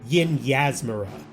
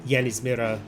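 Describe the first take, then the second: First: The name begins with the sounds 'Yin Yas'. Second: The name begins with the sounds 'Yanis'. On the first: The speaker calls it right. "her name is pronounced Yin Yasmira" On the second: The speaker calls it wrong. "I pronounced it Yanismira last time"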